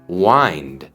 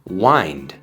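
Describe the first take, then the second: No difference in how they are said.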